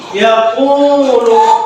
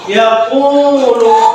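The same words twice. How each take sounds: First: The middle vowel is held for two beats. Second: The middle vowel is held for two beats.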